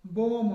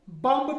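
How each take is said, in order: First: बॉम्ब ending on m, no b; correct silent b. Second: बम्ब with the final b spoken; wrong sounded b. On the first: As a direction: stop on the m in बॉम्ब. (बॉम्ब, b silent) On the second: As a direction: say the end b aloud as a mistake. (बम्ब, आखिरी b बोलकर) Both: Shown as a demonstration. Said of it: "बम्ब नहीं होता है".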